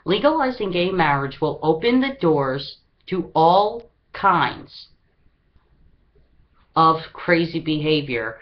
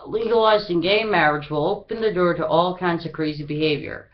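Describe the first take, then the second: First: The sentence is read slowly and deliberately. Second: The sentence is read at a normal pace.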